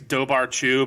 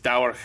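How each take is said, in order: First: The middle consonant is a b sound. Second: The middle consonant is a w sound. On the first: This is how the spelling suggests it is read. The speaker calls it wrong. "looks like it's" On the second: This is how the word is actually said. The speaker calls it right. "but it's"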